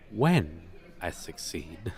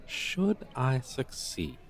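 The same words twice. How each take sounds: First: "when" stressed and lifted to a confident rise. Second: "Should" weighted with a slow falling tune; stress on should. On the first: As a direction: hit "when" firmly, rising, as the confident correction. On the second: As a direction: lean on "Should", drawn out and falling, then correct yourself. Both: Acted.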